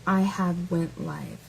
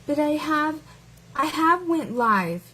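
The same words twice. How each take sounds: First: A hint of a slow hillbilly drawl; mock hillbilly. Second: Higher, slow mock read of the comment; mocking the commenter. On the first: Lightly mocking the commenter as a hillbilly. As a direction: drag it out like a mild hillbilly. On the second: Mocking the commenter's grammar to her viewers. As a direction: parrot the bad grammar back, lightly mocking. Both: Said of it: "I've only heard hillbillies speak like that".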